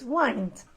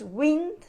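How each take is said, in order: First: The vowel is long, as in 'find'. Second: The vowel is short, as in 'pinned'. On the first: It is the verb, as in winding down. "in this case the verb is wind" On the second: It names moving air. "the noun is wind"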